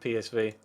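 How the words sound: The letters are said with English pronunciation. The speaker calls it wrong. "my English nature coming out of me saying P S V"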